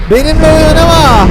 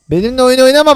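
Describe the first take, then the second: First: "Benimle oyun oynama" shouted higher and louder; warning shout. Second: Said in the usual way. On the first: Pretend. Dinosaur warns fleeing friend, loud threatening shout. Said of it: "Bağırırım böyle".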